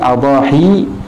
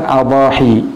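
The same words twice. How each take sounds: First: The final y sound is doubled. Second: The final y sound is single. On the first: "di ya-nya ditasydid" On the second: "di takhfif tidak ditasydid"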